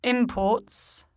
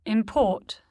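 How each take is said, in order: First: "imports" as a noun, IM-ports; stress on first syllable. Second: "import" as a verb, im-PORT; stress on second syllable. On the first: Teacher shows the noun, "imports" stressed on IM. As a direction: put the weight of "imports" on IM. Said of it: "stressed on the prefix". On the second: Teacher shows the verb, "import" stressed on PORT. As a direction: put the weight of "import" on PORT. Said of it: "stressed on the stem". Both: Shown as a demonstration.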